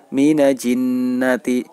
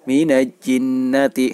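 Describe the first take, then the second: First: The l before jinnati is dropped. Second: The l before jinnati is dropped.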